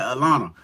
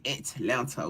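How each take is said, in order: First: The word is run together with sounds dropped. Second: Every sound of the word is clearly enunciated. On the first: This is how locals say the city's name. The speaker calls it right. "We say Atlanta" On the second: This is how outsiders say the city's name. The speaker calls it wrong. "we don't say Atlanta"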